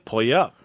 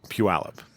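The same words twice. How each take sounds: First: The name is read the way it looks spelled. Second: The name is said the local way. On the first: The speaker calls it wrong. "it's spelled exactly that way... And so I'm like, that's Puyallup" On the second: The speaker calls it right. "It's really Pu- Puyallup"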